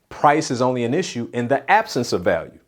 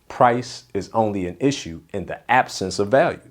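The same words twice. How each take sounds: First: It is said at normal speed. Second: It is said slowly and deliberately.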